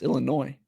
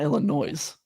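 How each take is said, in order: First: The final S is silent at the end. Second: The final S is pronounced at the end. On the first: The speaker calls it right. "Silent S" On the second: The speaker calls it wrong. "It's not Illinois"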